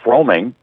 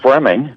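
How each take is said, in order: First: The O after the R is pronounced. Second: The O after the R is silent. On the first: The speaker calls it wrong. "for years people called him Bruce Froemming" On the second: The speaker calls it right. "but it was Fleming"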